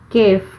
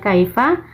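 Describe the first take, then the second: First: The word is said in its short colloquial form. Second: The word is said in its full standard form. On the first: This is the everyday spoken form. "kalau secara amiyahnya itu disebutnya itu kef" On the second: This is the formal written form. "kalau secara tertulisnya kaifa"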